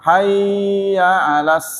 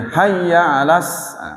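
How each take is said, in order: First: The vowel in hayya is drawn out long. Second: The vowel in hayya is kept short. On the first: The speaker calls it wrong. "Tidak boleh dibaca lama. ... nggak boleh" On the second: The speaker calls it right. "tidak boleh lama"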